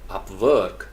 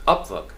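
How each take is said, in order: First: Upwork as up-WORK, like a verb; weight on the WORK of Upwork; stress on second syllable. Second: Upwork as UP-work, quick fall on work; American-style UP-work for Upwork; stress on first syllable. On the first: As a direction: lean long on WORK in Upwork. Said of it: "इसको verb बनाना चाहते हैं". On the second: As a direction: punch UP in Upwork. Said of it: "first syllable पे stress कर रहा है". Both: Shown as a demonstration.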